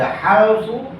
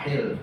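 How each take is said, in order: First: The first vowel is an open 'a' sound. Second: The first vowel is a close 'i' sound. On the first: "boleh dibaca halfu" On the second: "bisa dibaca hilfu"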